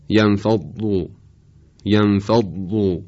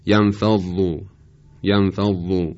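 First: Emphatic, heavy ض in «ینفض»; ضاد با اطباق. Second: Thin, unvelarized ض in «ینفض»; ضاد بدون اطباق. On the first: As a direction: say «ینفض» with the tongue raised to the palate on ض. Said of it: "ضاد اونطور که باید تلفظ بشه". («ینفض» با ضاد پرحجم و مُطبَق) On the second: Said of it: "اگر بدون اطباق بگیم". («ینفض» با ضاد نازک و رقیق) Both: Shown as a demonstration.

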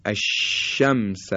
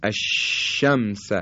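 First: الشمس with a wide spread sh; الشمس said with a full spread sh; correct sh sound. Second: الشمس drawn out, sh air spread wide; الشمس said slowly with a broad sh; slow tajwid demo. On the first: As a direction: let the air spread on الشمس. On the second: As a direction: stretch الشمس slowly, sh hissing fully. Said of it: "این تلفظ حرف شین هست". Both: Shown as a demonstration.

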